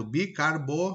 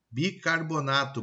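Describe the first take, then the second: First: "bicarbonato" garbled as "bicarbo... bornato"; "bicarbonato" broken up, ending "bor-nato"; swapped-sound mispronunciation. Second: Said in the usual way. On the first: Shown as a demonstration. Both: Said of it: "troca de posições de um ou mais fonemas".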